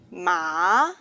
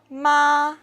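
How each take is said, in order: First: The pitch rises from middle to high. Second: The pitch stays high and level. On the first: "is a rising tone" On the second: "is a high level tone"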